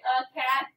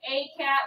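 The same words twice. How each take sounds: First: "a cat" with "a" said as a short "uh"; schwa A. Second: "a cat" with "a" rhyming with day; long A. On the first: Teacher showing pupils the natural form, "a cat" with schwa "uh". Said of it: "we say". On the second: Teacher showing pupils the form not used, "a cat" with long A. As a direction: give "a" in "a cat" its full letter name. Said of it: "Instead of saying". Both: Shown as a demonstration.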